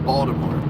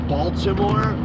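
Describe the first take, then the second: First: The city name is said in a local accent. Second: The city name is said in a standard accent. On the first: It is said among locals. "when us locals are talking" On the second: It is said for outsiders. "I pronounce it Baltimore when I'm talking to you guys"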